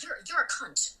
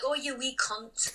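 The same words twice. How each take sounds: First: Blunt American-accented insult; plain, aggressive American accent. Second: Slow, playful Scottish lilt; cute, drawn-out Scottish accent. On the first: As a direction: deliver it as a verbal slap in an American accent. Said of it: "more aggressive when you're saying it in an American accent". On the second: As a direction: say it like a cheeky Scottish person. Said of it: "like, a Scottish person". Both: Shown as a demonstration.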